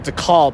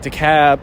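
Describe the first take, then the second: First: The L in the name is pronounced. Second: The L in the name is silent. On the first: This is how the name is said locally in New York. The speaker calls it right. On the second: This is how the name is said in Atlanta. The speaker calls it wrong. "Going to Atlanta for school ruined my pronunciation"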